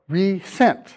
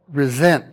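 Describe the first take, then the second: First: The middle consonant is an s sound. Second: The middle consonant is a z sound. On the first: To send something again. "resent with the hyphen is not pronounced with the same z sound" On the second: To feel bitter about something. "the same z sound as resent"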